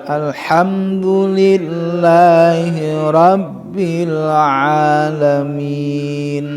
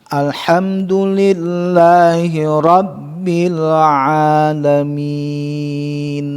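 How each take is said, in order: The two takes are said the same way.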